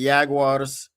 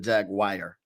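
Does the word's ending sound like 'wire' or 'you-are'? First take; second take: you-are; wire. First: The ending is said as separate 'you-ar' syllables. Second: The ending is said like the word 'wire'. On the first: The speaker calls it right. "I'm calling them the Jaguars on purpose" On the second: The speaker calls it wrong. "I don't call it a jaguar"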